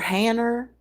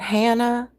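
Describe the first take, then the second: First: It ends with an added r, Massachusetts style. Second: It ends in a plain vowel.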